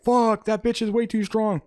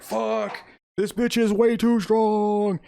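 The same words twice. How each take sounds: First: Audience echo. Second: High, drawn-out strained complaint; strained villain. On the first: Audience reacting to Sue's strength, mock-amazed exclamation. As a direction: echo the complaint high and quicker. Audience echoes the villain's line. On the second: Galactus being shoved a block by Sue, straining. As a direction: groan it out slowly, pushed up in pitch. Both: Retold or imitated.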